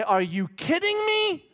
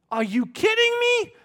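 First: Much higher and louder, slow; wife's retort. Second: Much higher, shouted; shouted wife's retort. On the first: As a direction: answer as the proud wife. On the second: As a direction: shout it as the proud wife. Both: Pretend. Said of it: "she will look you in the eye and say".

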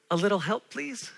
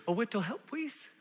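First: Said in the usual way. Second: "A little help" said as "a wittoh help"; child's lisp. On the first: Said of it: "taught her kids to say". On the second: Retold or imitated. Child asking for a little help, lisping "wittoh". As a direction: toddler mispronouncing "little" as "wittoh". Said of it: "can't always form their words".

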